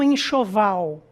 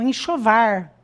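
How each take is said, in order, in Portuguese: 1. Ela é pronunciada com sotaque brasileiro padrão. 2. Ela é pronunciada com sotaque caipira. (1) "eles não falam enxoval" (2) "eles falam enxovar"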